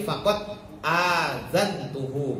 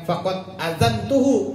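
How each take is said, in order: First: The vowel after the hamza is long. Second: The vowel after the hamza is short. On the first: The speaker calls it right. "bi hamzatin mamdudatin, pakai hamzah dua" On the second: The speaker calls it wrong.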